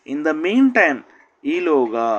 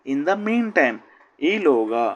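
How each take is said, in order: Both takes have the same delivery.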